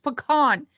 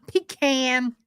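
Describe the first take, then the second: First: It does not sound like 'pee can'. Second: It sounds like 'pee can'. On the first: The speaker calls it right. "It's pecan" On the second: The speaker calls it wrong. "It's not pecan"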